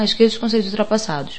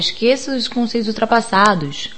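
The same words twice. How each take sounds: First: The final S sounds are soft and partly dropped. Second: The final S sounds are forced and strong. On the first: The speaker calls it right. "acabei comendo um pouquinho o S final" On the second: The speaker calls it wrong. "fiquei com medo de ficar um pouco forçado"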